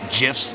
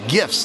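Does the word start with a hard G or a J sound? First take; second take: J sound; hard G. First: The word starts with a J sound. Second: The word starts with a hard G. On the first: The speaker calls it wrong. "not GIFs" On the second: The speaker calls it right. "there's no J"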